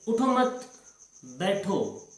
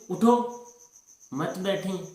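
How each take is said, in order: First: The pause comes after 'mat'. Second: The pause comes after 'utho'.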